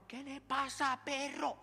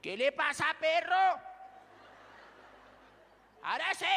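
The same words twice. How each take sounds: First: Tough guy challenge. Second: Loud, high Bogotá street challenge; Bogotá street tough. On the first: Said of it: "viene otro man". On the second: Pastor doing the Bogotá version of Abisai, in a street voice. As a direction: square up like a Bogotá tough guy. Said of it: "a lo bogotano". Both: Pretend.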